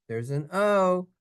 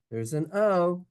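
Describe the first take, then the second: No difference in how they are said.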